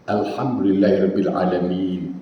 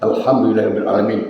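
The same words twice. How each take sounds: First: It is recited slowly with space and lengthening. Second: It is recited quickly, running the words together. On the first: The recitation rules are respected. The speaker calls it right. "Ada ruangan tajwid itu" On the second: The recitation rules are lost. The speaker calls it wrong.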